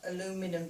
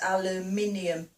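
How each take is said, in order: First: It has four syllables, with no 'ee' sound before '-um'. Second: It has five syllables, with an 'ee' sound before '-um'. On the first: This is how others say it. "not aluminum to us" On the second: This is how it is said here. "so it's aluminium"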